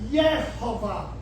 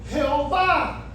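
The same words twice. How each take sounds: First: The name begins with a soft Y sound. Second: The name begins with a harsh throaty J sound. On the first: The speaker calls it right. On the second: The speaker calls it wrong.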